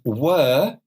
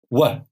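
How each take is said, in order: First: The vowel in the word is full. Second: The vowel in the word is reduced.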